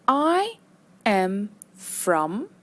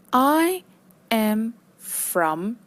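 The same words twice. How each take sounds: The two takes are said the same way.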